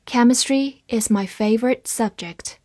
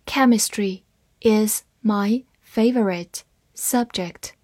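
First: Said in the usual way. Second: Slow, word-by-word model sentence; slow reading. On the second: Shown as a demonstration. Teacher models the sentence for learners, slow reading. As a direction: read it slowly with gaps between words. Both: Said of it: "慢读一遍".

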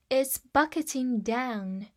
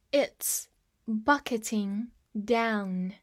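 First: Said in the usual way. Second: Slow, with pauses between words; slow model reading. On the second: Shown as a demonstration. Teacher repeats the example for students, slow and measured. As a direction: space the words out for learners.

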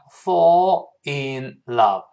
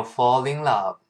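First: "fall in love" slow, word by word; separate words. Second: "fall in love" run together as "fallin love"; linked words. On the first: Teacher breaking down the phrase, separate words. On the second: Teacher showing students the phrase linked, joined words. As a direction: glide the l of "fall" into "in". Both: Shown as a demonstration. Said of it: "连读变成fall in love".

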